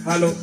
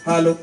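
No difference in how they are said.

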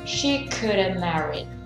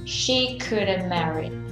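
First: 'Could have' is shortened and run together. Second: 'Could have' is shortened and run together.

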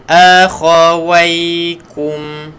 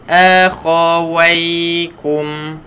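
No difference in how they are said.

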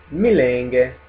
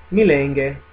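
No difference in how they are said.

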